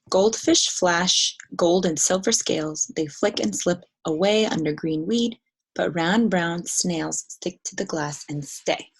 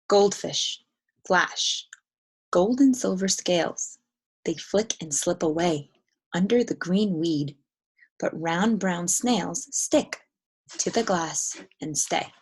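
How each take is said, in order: First: It is read with few pauses, like prose. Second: It is read with many short pauses, songlike.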